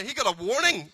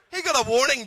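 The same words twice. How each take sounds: First: Said in the usual way. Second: "got" hit higher, flat fall on "warning"; punchline stress on got. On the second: Shown as a demonstration. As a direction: lean on "got" to land the joke.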